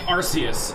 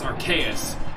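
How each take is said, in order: First: The first syllable does not sound like 'arc'. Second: The first syllable sounds like 'arc'. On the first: This is how many people say it. The speaker calls it wrong. "people say Arceus" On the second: The name blends two source words. The speaker calls it right. "it's Arceus because it's the combination of the term arcane and deus"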